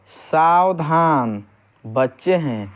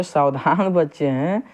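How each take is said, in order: First: Long-drawn "सावधान", break, then "बच्चे हैं"; slow warning "सावधान", pause, falling "बच्चे हैं"; pause after सावधान. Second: "सावधान बच्चे हैं" run together as one phrase; unbroken "सावधान बच्चे हैं", rising at the end; no pause after सावधान. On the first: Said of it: "सावधान किया जा रहा है". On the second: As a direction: join "सावधान" straight onto "बच्चे हैं". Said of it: "बच्चे जो हैं वो अटेंशन की मुद्रा". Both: Shown as a demonstration.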